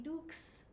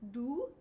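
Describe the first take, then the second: First: It ends with a ks sound after the vowel. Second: It ends in a pure rounded oo vowel. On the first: The speaker calls it wrong. "In our American English, it would be dukes" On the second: The speaker calls it right. "In French, O U is always U"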